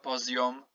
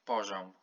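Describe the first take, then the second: First: The i is said as a full separate vowel. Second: The i is shortened and blends into the consonant. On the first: The speaker calls it wrong. "Not poziom" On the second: The speaker calls it right. "shorten I"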